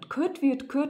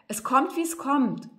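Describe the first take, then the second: First: It is spoken in Cologne dialect. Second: It is spoken in standard German.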